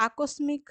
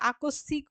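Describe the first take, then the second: First: আকস্মিক with m sounded, ending "mik"; spelling pronunciation. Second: আকস্মিক with silent m, ending "sik"; spoken pronunciation. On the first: Teacher showing the written form, ending in "mik". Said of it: "মিক না লিখে". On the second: Teacher showing what is really spoken, ending in "sik". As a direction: double the s in আকস্মিক, dropping the ম. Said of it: "আমরা সিক লিখব". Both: Shown as a demonstration.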